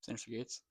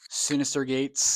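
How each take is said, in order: First: It is said at a quieter volume. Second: It is said at a louder volume.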